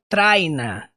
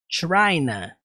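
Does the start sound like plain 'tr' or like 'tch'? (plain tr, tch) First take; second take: plain tr; tch. First: The start is a plain 't' plus 'r'. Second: The start sounds like 'tch' plus 'r'. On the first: The speaker calls it wrong. "não é Trina" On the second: The speaker calls it right. "Eu coloquei esse TCH para melhor representar esse som"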